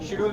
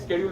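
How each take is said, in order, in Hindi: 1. यह शब्द 'sh' ध्वनि से शुरू होता है। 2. यह शब्द 'sk' ध्वनि से शुरू होता है। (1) "शेड्यूल भी बोलते हैं" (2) "स्केड्यूल भी बोलते हैं"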